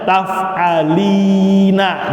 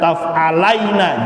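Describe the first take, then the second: First: The syllable before 'na' is 'li', with an i vowel. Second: The syllable before 'na' is 'lai', with a diphthong. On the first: The speaker calls it right. "Contohnya taf'alina" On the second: The speaker calls it wrong. "jangan dibaca taf'alaina"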